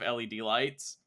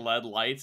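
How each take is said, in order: First: LED is spelled out letter by letter. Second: LED is said as a single word. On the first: The speaker calls it right. "It's an acronym" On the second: The speaker calls it wrong. "a word and it was two syllables less"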